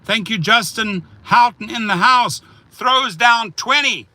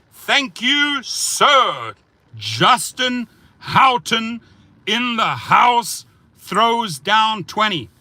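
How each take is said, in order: First: Said in the usual way. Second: High, slow, shouted shout-out; hype announcer shout. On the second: Acted. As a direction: boom it out like a ring announcer. Hyped repeat of donor shout-out.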